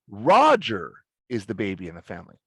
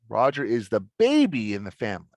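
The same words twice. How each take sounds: First: The stress falls on the word Roger. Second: The stress falls on the word baby. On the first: It answers who the baby in the family is. "Then Roger's the most important" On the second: It answers whether Roger is the baby. "is Roger the baby"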